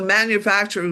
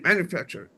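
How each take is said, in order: First: Every syllable is said fully and clearly. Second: Some syllables are squeezed together or dropped. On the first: The speaker calls it right. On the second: The speaker calls it wrong.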